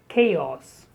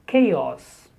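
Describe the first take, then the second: Both takes have the same delivery.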